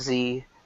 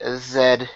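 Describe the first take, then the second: First: The letter is pronounced zee. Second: The letter is pronounced zed. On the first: This is the ordinary way of saying it. "instead of just Z" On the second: This is the Canadian way of saying it. "Canadians say Z"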